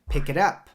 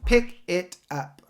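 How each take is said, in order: First: The K links into it, all together. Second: The words are said separately, not linked. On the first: The speaker calls it right. "The K links to it, so it sounds like pick it. It's together" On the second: The speaker calls it wrong. "That's not how we say it"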